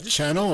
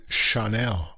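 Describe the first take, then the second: First: "Channel" with stress on the first syllable; English pronunciation. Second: "Chanel" as shah-NELL, stressed on the end; French-style pronunciation. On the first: Co-host asking which way the label is said, English pronunciation. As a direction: say "Channel" like the English word, CHAN-ul. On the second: Co-host asking which way the label is said, French-style pronunciation. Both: Shown as a demonstration. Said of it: "You gotta pronounce it differently".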